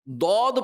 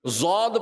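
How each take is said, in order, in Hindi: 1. अक्षर अरबी लहजे में बोला गया है। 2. अक्षर उर्दू लहजे में बोला गया है। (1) "ये अरबी लहजा है" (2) "ये उर्दू लहजा है"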